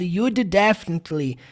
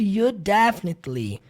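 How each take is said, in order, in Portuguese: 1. O som do D é pronunciado duas vezes, separadamente. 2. Os dois sons do D se juntam e viram um só. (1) "Não vai jamais na vida ser pronunciado ... E o som do D sendo repetido" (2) "Fica literalmente ... Como se o D não existisse"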